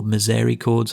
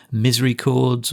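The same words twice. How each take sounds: First: Misericords with the stress on the second syllable, miz-AIR-i-cords; alternative pronunciation. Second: Misericords with the stress on the first syllable, MIZ-ree-cords; first pronunciation variant. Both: Shown as a demonstration. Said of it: "however you want to say it".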